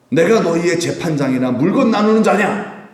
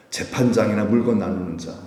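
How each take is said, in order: First: Higher, forceful rhetorical challenge; indignant rebuke. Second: Said in the usual way. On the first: Retold or imitated. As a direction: demand it angrily, voice climbing. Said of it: "예수님도 화가 나시잖아요". (화가 나서 되묻듯 호통치는 말투)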